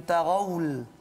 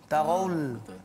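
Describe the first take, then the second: The two takes are said the same way.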